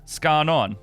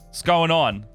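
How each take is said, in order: First: The words are squashed into one short word. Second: Each word is said separately and fully.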